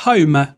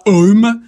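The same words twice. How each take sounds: First: "home" with a breathed H; sounded H. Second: "home" with the H left silent; wrong French-style "home", no H; dropped H. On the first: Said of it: "mais on dira home". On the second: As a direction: start "home" straight on the vowel. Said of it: "On dira pas home". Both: Shown as a demonstration.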